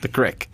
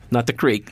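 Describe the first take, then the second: First: Creek is said with the local pronunciation. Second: Creek is said with the standard pronunciation. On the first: The speaker calls it right. "They call it the creek" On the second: The speaker calls it wrong.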